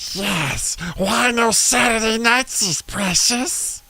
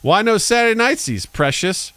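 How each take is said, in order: First: It is a convincing Gollum voice. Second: It is a weak, off-target Gollum voice.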